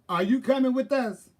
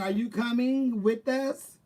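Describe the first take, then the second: First: The final g of coming is dropped. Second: The final g of coming is clearly pronounced. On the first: It is the urban way of speaking. "It is the urban way" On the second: It is the proper way of speaking. "It's the proper way"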